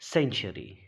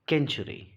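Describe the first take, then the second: First: The word begins with an s sound. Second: The word begins with a k sound. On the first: The speaker calls it right. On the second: The speaker calls it wrong. "इसे नहीं पढ़ते केंचुरी"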